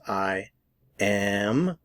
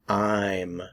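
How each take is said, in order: First: It is said in full as two words. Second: It is contracted into one syllable. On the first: "Notice the difference" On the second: "we commonly contract I am to I'm"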